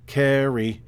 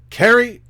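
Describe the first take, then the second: First: The pitch drops on the word. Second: The pitch goes up on the word. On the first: The speaker calls it wrong. "not carry" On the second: The speaker calls it right. "it's always the inflection going up"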